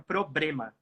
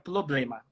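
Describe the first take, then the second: First: The L sound is replaced by an R. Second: The first R sound is replaced by an L. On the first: "troca o segundo L por um R" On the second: "troca o primeiro R por um L"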